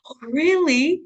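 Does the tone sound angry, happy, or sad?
happy. It is said in a happy, surprised tone.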